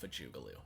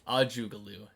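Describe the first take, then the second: First: The name begins with an F sound. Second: The name begins with a vowel sound.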